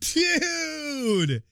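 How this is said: It sounds excited.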